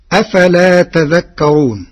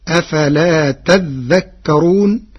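First: Said in the usual way. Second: تذكرون read as tadhdhakkarun, with a doubled dhal; Warsh reading. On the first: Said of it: "قرأ ورش كلمة "تذكرون". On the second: Shown as a demonstration. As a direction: hold the dhal in تذكرون and merge the ta into it. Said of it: "بتشديد الذال، فتصير". (قراءة ورش: تذّكرون بتشديد الذال)

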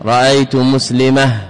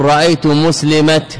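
First: مسلمة ends in h; pausal ha ending. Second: مسلمة said slowly, ending in a clear t; مسلمة ends in t; pausal ta ending. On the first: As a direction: say مسلمة as muslimah. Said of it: "تبدلها هاء". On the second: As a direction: say مسلمة as muslimat. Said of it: "إبدال الوقوف على التاء تاء". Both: Shown as a demonstration.

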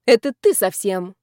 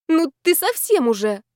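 First: Loud retort at normal pitch; firm, louder counter-attack; blunt comeback. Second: High, exclaiming tipsy indignation; higher, affronted outburst; outraged reproach. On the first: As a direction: throw the reproach straight back. Friend throws reproach back. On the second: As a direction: scold a friend in a raised pitch. Friends bicker, heroine outraged. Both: A narrator's reading.

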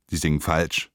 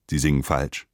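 The two takes are said the same way.

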